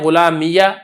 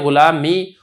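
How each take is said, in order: First: The final ya is followed by a short a. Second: The final ya has no vowel after it. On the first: "आप इसको फतह भी दे सकते हैं" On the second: "इसको आप साकिन भी छोड़ सकते हैं"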